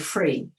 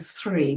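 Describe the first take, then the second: First: The word begins with an f sound. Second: The word begins with a th sound. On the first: "we'll say free. He does the th is a f always" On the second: "instead of saying three"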